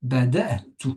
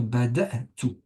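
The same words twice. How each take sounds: First: Bada'tu said firmly with a clear stop before tu; glottal stop pause. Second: Bada'tu with a clean catch before tu; glottal stop pause. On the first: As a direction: cut the air sharply at the apostrophe in Bada'tu. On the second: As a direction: stop the breath briefly between bada and tu in bada'tu. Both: Shown as a demonstration. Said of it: "on va marquer un temps d'arrêt".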